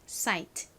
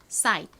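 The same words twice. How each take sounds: First: The final t is clearly audible. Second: It is said fast with the t nearly silent. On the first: "끝에 티이는 트 소리가 됩니다" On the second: "빠르게 발음하면 트 소리가 거의 나지 않아서"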